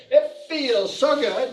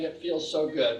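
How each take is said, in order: First: Higher, slow, emphatic; affirmation called out. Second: Said in the usual way. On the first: Shown as a demonstration. Teacher leads the group affirmation, slow emphatic call. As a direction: call it out for the class.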